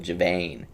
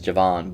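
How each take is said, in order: First: The second vowel is a long 'ay' sound. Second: The second vowel is a short 'ah' sound. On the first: "makes you stress that second A as a hard A sound" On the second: "I would pronounce that as Javon"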